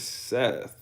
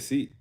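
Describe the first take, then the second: First: The name ends with a th sound. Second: The name ends with a t sound. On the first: This is the name as it is spelled. "his name is Seth. Like it's S E T H" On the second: This is how the family says the name. "But we say Seat"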